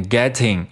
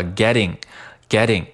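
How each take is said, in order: First: Said in the usual way. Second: "getting" with tt softened to a quick d; voiced T. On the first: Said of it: "需要读成一个浊化的". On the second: Shown as a demonstration. Teacher drilling learners, "getting" with a voiced t. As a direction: say "getting" as "gedding". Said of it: "一个浊化的getting".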